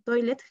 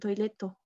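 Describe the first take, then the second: First: It is said the English way, ending in t. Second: It is said Japanese-style, with an added final vowel. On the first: "cuando ellos dicen toilet" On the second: "ellos dicen toileto"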